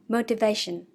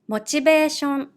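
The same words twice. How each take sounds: First: It is said with English pronunciation. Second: It is said with Japanese katakana pronunciation. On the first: "meaning motivation" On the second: "I will read in Japanese first"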